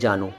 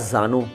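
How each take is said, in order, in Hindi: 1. शब्द की शुरुआत j की आवाज़ से होती है। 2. शब्द की शुरुआत z की आवाज़ से होती है।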